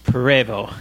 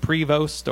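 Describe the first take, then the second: First: The final st sound is silent. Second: The final st sound is pronounced. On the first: The speaker calls it right. "But it's French" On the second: The speaker calls it wrong. "cause I always said Prevost or Prevost"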